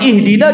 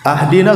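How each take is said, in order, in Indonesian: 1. Kata ini diawali dengan vokal 'i'. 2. Kata ini diawali dengan vokal 'a'. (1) "Kalau ihdina ya betul minta petunjuk" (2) "salah mengucapkan sampai merubah makna"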